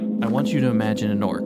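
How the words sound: It is said low, nasal and in a monotone.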